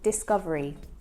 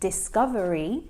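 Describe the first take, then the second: First: The final syllables merge into one shortened sound. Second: Every syllable is pronounced fully and clearly. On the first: The speaker calls it right. "we often will shorten it to discovery" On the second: The speaker calls it wrong. "he pronounces it as discovery"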